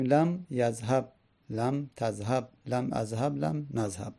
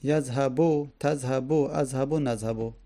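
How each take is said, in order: First: Final b left without a vowel; sukun on each verb. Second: Final u sounded on each verb; damma on each verb. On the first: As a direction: stop each yadhhab form on bare b. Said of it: "مجزوم به سکون". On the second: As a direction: end each yadhhab form on u. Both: Shown as a demonstration.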